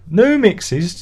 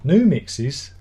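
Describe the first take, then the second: First: Incredulous. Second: Said in the usual way. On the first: Real, not acted. Repeats it again, incredulous.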